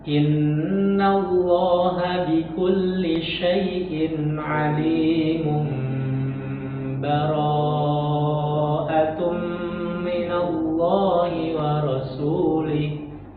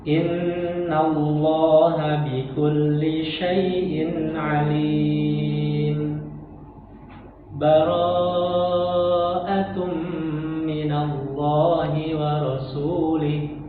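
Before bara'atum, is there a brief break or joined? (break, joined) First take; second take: joined; break. First: It runs straight into bara'atum without stopping. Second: A brief silent stop comes before bara'atum. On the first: "diwasol saja, disambung saja" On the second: "Di situ tadi berhenti sejenak itu tanpa nafas"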